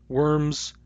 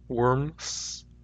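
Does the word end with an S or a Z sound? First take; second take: Z; S. First: The word ends with a Z sound. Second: The word ends with an S sound. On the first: "These words have Z" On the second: "If I say these with S instead"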